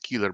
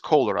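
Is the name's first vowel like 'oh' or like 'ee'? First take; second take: ee; oh. First: The first vowel sounds like 'ee'. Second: The first vowel sounds like 'oh'. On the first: The speaker calls it wrong. "I don't think it's Keeler" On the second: The speaker calls it right. "I think it's Kohler"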